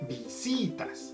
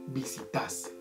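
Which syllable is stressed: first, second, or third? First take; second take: second; third. First: The stress is on the second syllable. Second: The stress is on the third syllable. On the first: "Visitas tiene el acento en la si" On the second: "si lo cambiáramos para el tas, sonaría visitas"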